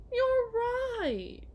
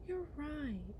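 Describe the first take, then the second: First: High, mocking you're right; sarcastic agreement. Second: Said in the usual way. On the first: To the partner, sarcastic high agreement. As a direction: toss it back with mock agreement.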